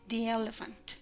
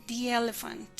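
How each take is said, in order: The two takes are said the same way.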